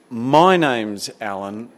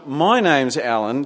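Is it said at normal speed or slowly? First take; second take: slowly; normal speed. First: It is said a little slowly. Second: It is said at normal speed.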